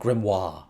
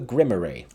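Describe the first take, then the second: First: The word ends with a 'wahr' sound. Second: The word ends with a 'ree' sound. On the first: "someone said it's like Grimoire" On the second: "apparently I've been pronouncing it wrong"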